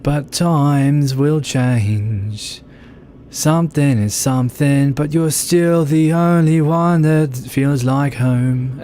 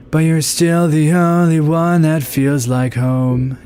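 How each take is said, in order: First: Slow sung line, Australian vowels, pitched higher; sung in Aussie accent. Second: Higher sung line with American r-colored vowels; sung in American accent. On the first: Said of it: "And she'll sing like that". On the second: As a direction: croon it like a generic American pop singer. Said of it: "if they were singing with American". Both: Retold or imitated.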